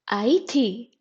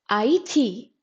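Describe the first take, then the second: No difference in how they are said.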